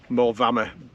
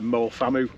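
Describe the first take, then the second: First: The second word begins with a V sound. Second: The second word begins with an F sound. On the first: The speaker calls it right. "an F in Welsh is a V, and so it became Mole Vama" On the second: The speaker calls it wrong. "we used to call it Mole Famu when we were growing up"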